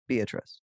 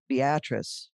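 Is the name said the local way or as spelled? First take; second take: as spelled; local. First: The name is said as its spelling suggests. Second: The name is said in the local pronunciation. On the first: This is how the written name suggests it is said. "when it's spelled Beatrice" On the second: This is how people in the town say it. "why do they pronounce it Beatrice"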